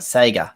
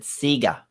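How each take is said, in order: First: Sega is said with an American pronunciation. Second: Sega is said with an Australian pronunciation. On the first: "the way you Americans say w you say Sega" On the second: "Growing up as a kid in Australia, we said Sega"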